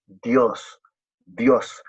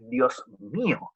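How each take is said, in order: First: Said in the usual way. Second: "mío" drawn out slowly with a rising lift; stress on mío. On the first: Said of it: "Fíjense que tampoco es simplemente". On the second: Shown as a demonstration. Preacher showing the congregation the cry, leaning on "mío". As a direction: linger on "mío" in a slow "Dios mío".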